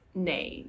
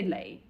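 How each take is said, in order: First: The word starts with an N sound. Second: The word starts with an L sound. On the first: This is the proper way to say it. "but actually it's nei" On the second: This is the relaxed everyday way people say it. "We say lei"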